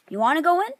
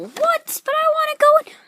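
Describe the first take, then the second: First: Said in the usual way. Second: Very high-pitched whiny figure; squeaky protest. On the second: Acted. Figure protests being put out.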